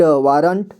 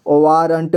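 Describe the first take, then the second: First: Said in the usual way. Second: वारंट split as "vaa-ran-ta"; वारंट read piece by piece; sounded out. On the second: Shown as a demonstration. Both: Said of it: "इसे संजय पढ़ेंगे".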